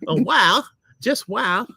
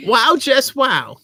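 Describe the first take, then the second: First: High voice, less drawn out; a high second try at a character; put-on character voice. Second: Loud, high, drawn-out put-on voice; character voice. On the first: Husband trying a second voice for the review, character voice. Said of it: "you have to be a lady". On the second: Husband auditioning a voice to read the review, character voice. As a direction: play it big, slow and high. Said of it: "Well, you can do voices". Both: Shown as a demonstration.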